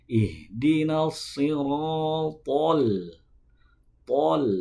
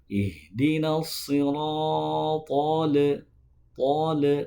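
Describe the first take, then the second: First: The L sound is short and crisp. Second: The L sound is dragged out and bounced. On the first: The speaker calls it right. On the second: The speaker calls it wrong. "tidak boleh dipantulkan, tidak boleh diseret-seret"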